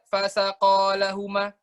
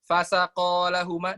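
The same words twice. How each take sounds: First: "Fasaqo lahuma" read slowly with a rising, melodic tune; correct melodic reading. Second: "Fasaqo lahuma" read slow and level, no melody; flat intonation. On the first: Teacher reading the verse correctly with its melody. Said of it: "Kalau kita baca". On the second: Teacher showing the wrong flat reading that changes meaning. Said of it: "karena intonasinya datar". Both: Shown as a demonstration.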